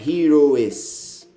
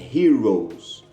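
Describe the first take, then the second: First: The ending is said as an extra syllable. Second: Only an s sound is added to the word. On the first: The speaker calls it wrong. "A pronúncia aqui não é heroes" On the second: The speaker calls it right. "apenas acrescentando um som de S ao singular"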